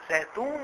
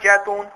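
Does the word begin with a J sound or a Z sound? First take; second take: Z sound; J sound. First: The word begins with a z sound. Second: The word begins with a j sound. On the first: The speaker calls it right. "اور وہ زیتون ہے" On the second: The speaker calls it wrong. "پنجابی میں جیتون کہتے ہیں"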